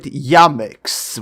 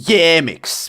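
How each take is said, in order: First: The first vowel is a clear open A. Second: The first vowel is an anglicized, less open sound. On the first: This is the speaker's own preferred pronunciation. "I personally go with Yamix, with clear A" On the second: This is how many native English speakers say it. "quite a lot of native English speakers tend to call me Yamix"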